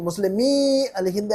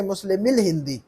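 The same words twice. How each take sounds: First: मुस्लिमी अल हिंद with long ee; unlinked मुस्लिमी, separate al; drawn-out wrong reading. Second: मुस्लिमिल हिंदी linked with short "mil"; one smooth phrase, short i in मुस्लिमिल; joined reading. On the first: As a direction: hold the end of मुस्लिमी before अल. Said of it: "लंबा नहीं खींचेंगे इसको". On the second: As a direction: run मुस्लिमिल straight into हिंदी. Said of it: "join करके". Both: Shown as a demonstration.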